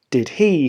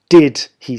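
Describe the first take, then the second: First: The word he carries the stress. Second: The word did carries the stress. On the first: "with an emphasis on he" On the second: "with the emphasis on did"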